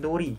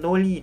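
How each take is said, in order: First: The middle consonant is an R sound. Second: The middle consonant is an L sound. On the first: The speaker calls it right. "tapi nori karena vokal belakangnya" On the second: The speaker calls it wrong. "Bukannya noli"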